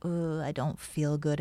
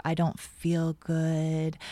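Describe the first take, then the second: First: Groaning fake-sick voice; faking frailty. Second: Put-on slow, weak sick-kid voice; faking frailty. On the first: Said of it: "in my voice". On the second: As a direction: pretend to feel sick, drawn out. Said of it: "I kind of had that, "Ugh, I don't feel good" in my voice".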